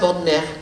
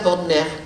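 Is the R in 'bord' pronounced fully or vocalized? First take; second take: vocalized; vocalized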